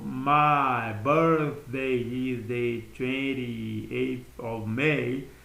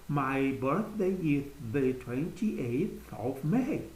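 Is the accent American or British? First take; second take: American; British. First: It is spoken in an American accent. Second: It is spoken in a British accent.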